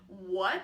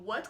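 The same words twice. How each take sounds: First: The word is said with Mandarin's third tone. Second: The word is said with Mandarin's second tone. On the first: It expresses confusion and asks for more explanation. "So the third tone kind of implies a confusion" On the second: It expresses surprise or shock. "The second tone"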